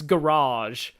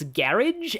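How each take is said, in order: First: It is said in an American accent. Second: It is said in a British accent. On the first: "and in the U S, it's garage" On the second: "In uh, U K, it's garage"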